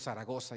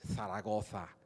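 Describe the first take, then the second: First: The z sounds are pronounced like s. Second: The z sounds are pronounced like th. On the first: This is how the visiting Mexican student says it. The speaker calls it wrong. "cinco meses diciendo Zaragoza" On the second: This is how the local people say it. The speaker calls it right. "y ellos"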